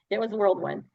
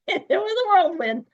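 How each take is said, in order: First: Said in the usual way. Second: High, loud burst on whirlwind; excited. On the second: Real, not acted. Telling the host about her new life, a loud excited burst. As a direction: throw it up with a thrill.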